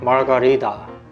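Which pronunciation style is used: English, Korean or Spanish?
English. It is said in an English-style pronunciation. "심지어 영어도 마르가리다"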